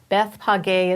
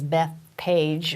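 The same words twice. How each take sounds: First: The name is pronounced the Hebrew way. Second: The name is pronounced the English way. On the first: The speaker calls it right. "is really the pronunciation" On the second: The speaker calls it wrong. "If you read it in English, it says Beth Page, which sounds kind of weird"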